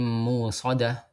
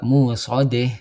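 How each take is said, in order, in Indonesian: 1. Vokal akhirnya adalah a terbuka biasa. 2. Vokal akhirnya condong ke e. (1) "Diganti hamzahnya menjadi waw" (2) "maka dia dibaca imalah juga"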